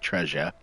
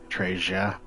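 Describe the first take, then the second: First: It is said in a standard accent. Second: It is said in a Northeast accent.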